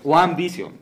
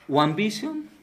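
First: The pitch falls at the end like a statement. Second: The pitch rises at the end like a question. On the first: It is stated as a slogan. "en eslogan es One Vision" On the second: It is asked as a question. "yo le puse la entonación de interrogación"

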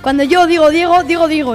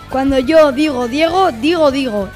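First: It is said at fast speed. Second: It is said at medium speed.

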